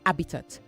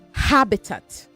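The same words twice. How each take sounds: First: The opening h sound is dropped. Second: The opening h sound is clearly pronounced. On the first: The speaker calls it wrong. "not habitat" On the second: The speaker calls it right. "Say habitat ... you must try to enunciate the ha"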